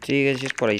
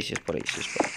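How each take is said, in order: First: Said in the usual way. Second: Whispered to himself, softer; muttered to himself. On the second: Real, not acted. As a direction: mutter it under your breath. Muttering to himself while searching.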